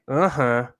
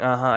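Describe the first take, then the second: First: It has the Brazilian Portuguese inflection. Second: It has the usual American English inflection. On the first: "they put the inflection differently on uh-huh" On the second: "instead of saying uh-huh"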